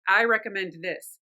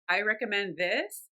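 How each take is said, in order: First: The pitch falls at the end. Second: The pitch rises at the end. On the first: The speaker sounds authoritative and final. The speaker calls it right. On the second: The speaker seems to be asking for permission. The speaker calls it wrong. "permission seeking"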